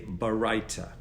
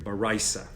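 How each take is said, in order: First: The last consonant is a t sound. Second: The last consonant is an s sound.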